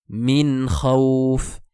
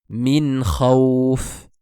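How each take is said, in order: The two takes are said the same way.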